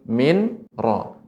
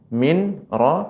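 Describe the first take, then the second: First: The n is pronounced separately before the r. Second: The same.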